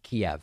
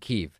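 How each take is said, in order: First: It uses the older anglicized English pronunciation. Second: It uses the newer pronunciation closer to Ukrainian. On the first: It follows the old English spelling of the name. "It's spelled K-I-E-V and it's pronounced Kiev" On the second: It follows the way the name is said in Ukraine. "it's a new pronunciation"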